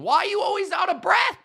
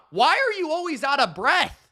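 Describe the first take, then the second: First: Higher, fast shouted question; exasperated shout. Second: Said in the usual way. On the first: Real, not acted. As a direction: yell it at him, fed up. Ranting at the quarterback.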